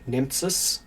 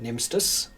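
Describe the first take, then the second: First: The middle cluster sounds like 'ts'. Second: The middle cluster sounds like 'st'. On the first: This is how the name would be read from its letters. "phonetically you would pronounce it" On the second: This is how the family actually says the name. "all of my relatives pronounce it"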